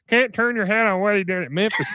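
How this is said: It is said in a put-on cartoon character voice.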